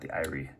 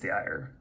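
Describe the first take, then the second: First: The name is said as two syllables. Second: The name is said as one syllable. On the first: The speaker calls it wrong. "not the irie" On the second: The speaker calls it right. "I'm assuming it's the ire"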